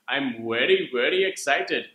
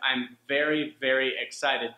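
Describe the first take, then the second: First: Very begins with a rounded W sound. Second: Very begins with a buzzing V sound. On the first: The speaker calls it wrong. "they'll say" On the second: The speaker calls it right. "instead of"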